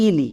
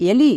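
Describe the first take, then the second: First: ইলি opening on an "ee" sound; wrong pronunciation demo. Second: এলি opening on an "e" sound; correct pronunciation. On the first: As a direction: say ইলি with a first "ee" vowel. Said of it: "ইলি হবে না". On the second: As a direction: say এলি with e as in "elephant". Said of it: "এর উচ্চারণটা হবে এলি". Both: Shown as a demonstration.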